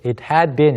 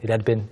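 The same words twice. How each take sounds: First: Every word is said fully and clearly. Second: The word had is squeezed and said quickly. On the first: "이렇게 하지 않고" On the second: "빠르게 지나가니까 주의해 주시고요"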